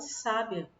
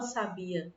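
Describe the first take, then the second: First: The i glides quickly into the a. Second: The i is a full, separate vowel. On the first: The speaker calls it right. "a gente fala sábia ... O i, ele tá aparecendo rápido" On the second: The speaker calls it wrong. "a gente não fala sabia"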